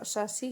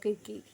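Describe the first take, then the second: First: The name begins with an s sound. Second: The name begins with a k sound. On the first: "British pronunciation इसका सासी है" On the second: "Greek pronunciation में देखें तो इसको किरकी"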